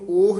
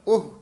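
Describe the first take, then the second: First: The word is said slowly and drawn out. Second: The word is said quickly and short. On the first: The speaker calls it wrong. "ਉਸ ਨੂੰ ਉਹ ਨਹੀਂ ਕਹਿਣਾ" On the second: The speaker calls it right. "ਉਹਨੂੰ ਕਹਿਣਾ ਉਹ, ਛੇਤੀ ਬੋਲ ਦੇਣਾ"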